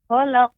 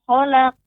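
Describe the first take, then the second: No difference in how they are said.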